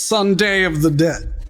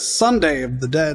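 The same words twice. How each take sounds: First: The stress is on the second syllable of Sunday. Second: The stress is on the first syllable of Sunday. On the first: It is read as a nod to a zombie film title. "I can't not put the emphasis on day" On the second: It is read as an ordinary weekday. "I don't read it as Sunday of the Dead"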